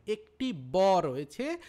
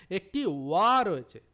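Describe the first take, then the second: First: ব drawn out loud as a lip-closed B; slow right down and punch ব with closed lips; distinct B. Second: ওয়া loud, with a rounded W glide; distinct W. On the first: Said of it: "যখন ব বলছি তার উচ্চারণ তো এইটা শোনাচ্ছে". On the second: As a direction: punch ওয়া as English W, not B. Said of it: "তাহলে এটার উচ্চারণও আলাদা". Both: Shown as a demonstration.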